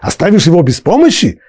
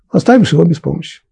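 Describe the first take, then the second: First: It is said as a rhetorical question. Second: It is said as a plain statement.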